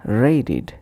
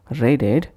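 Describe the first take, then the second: First: "raided" said as ray-did; id ending. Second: "Raided" ending in an ed vowel, ray-ded; spelt-out ed. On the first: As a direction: end "raided" with a short id. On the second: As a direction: say "Raided" to rhyme its end with bed. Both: Shown as a demonstration. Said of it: "pronounced as".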